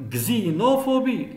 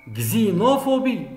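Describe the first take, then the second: No difference in how they are said.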